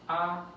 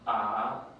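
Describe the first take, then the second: First: The pitch stays level and high. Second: The pitch dips low. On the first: "the first sound is going straight" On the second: "then you go down ah"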